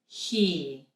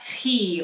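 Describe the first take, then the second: First: The h has soft, light breathy friction. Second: The h has strong, harsh throat friction. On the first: The speaker calls it right. "Softer, softer" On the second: The speaker calls it wrong. "it's not he or how"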